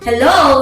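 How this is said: The pitch falls from high on the word. The speaker sounds welcoming. "with a high fall sounds welcoming"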